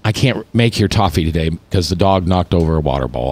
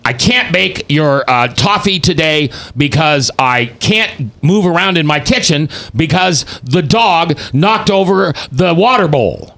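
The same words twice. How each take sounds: First: Defeated. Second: Said in the usual way. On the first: Shown as a demonstration. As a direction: read it like you have given up. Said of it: "I feel defeated". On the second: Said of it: "Or it can be".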